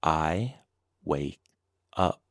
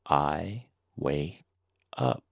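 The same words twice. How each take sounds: The two takes are said the same way.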